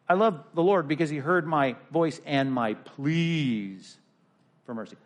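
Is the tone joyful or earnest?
earnest. It is read in an earnest, pleading tone.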